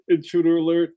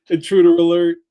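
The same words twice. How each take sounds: First: Said in the usual way. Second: Loud alarm call; alarm shout. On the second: Pretend. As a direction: call it out like a siren. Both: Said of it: "damn it, I did it again".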